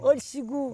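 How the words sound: It is said in a sad, subdued way.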